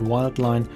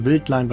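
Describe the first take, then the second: First: Wild is said the English way, starting with W. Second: Wild is said the German way, starting with V. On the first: "you can also pronounce it" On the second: "a combination of line and wild from Bad Wildbad"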